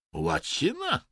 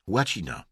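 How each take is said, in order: First: High, dim-witted echo; dumbly puzzled. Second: Said in the usual way. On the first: A narrator's reading. Vadim echoes the unexpected answer, dumbly. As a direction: repeat it stupidly, pitched way up. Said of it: "powtórzył głupkowato Wadim".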